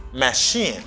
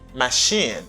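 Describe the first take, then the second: No difference in how they are said.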